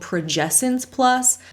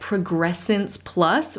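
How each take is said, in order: First: No R sound follows the 'Prog' syllable. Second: An extra R sound follows the 'Prog' syllable. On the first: The speaker calls it right. "when it's actually called Progessence Plus" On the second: The speaker calls it wrong. "she keeps calling it Progressence Plus"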